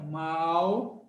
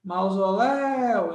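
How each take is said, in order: First: "Mausoléu" as MAU, ZO, LÉU with long gaps; separando sílabas. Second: "Mausoléu" with LÉU stretched long; sílaba forte esticada. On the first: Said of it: "vamos separar". ("Mausoléu" pausado, sílaba por sílaba) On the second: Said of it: "Quem é o forte?". ("Mausoléu" puxando forte o LÉU final) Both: Shown as a demonstration.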